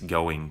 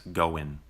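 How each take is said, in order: First: The final g sound is pronounced. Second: The final g sound is dropped.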